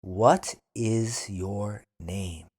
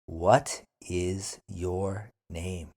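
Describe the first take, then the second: First: What is your name? slowly, What stressed; slow teacher model of What is your name?. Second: What is your name? slower, lower; drawn-out What is your name?; slow repeat. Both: Shown as a demonstration. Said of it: "then repeat slowly".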